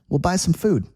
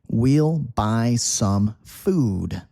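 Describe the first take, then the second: First: The sentence is said quickly and smoothly. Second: The sentence is said slowly and carefully.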